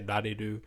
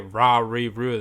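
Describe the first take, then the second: First: The R is a light flap between L and R. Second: The R is a hard English-style R sound. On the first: The speaker calls it right. "They say nani do" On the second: The speaker calls it wrong. "they don't say ra re ru"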